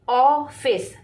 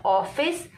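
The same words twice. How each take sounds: First: ऑफिस stretched slowly with a wide open ऑ; half-open mouth on the ऑ of ऑफिस, said slowly. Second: Said in the usual way. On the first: Shown as a demonstration. Hindi teacher shows children the open ऑ in ऑफिस, slowly. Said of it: "ऑ, तो आधा आपका मुंह". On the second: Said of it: "जब आपने ऑफिस बोला".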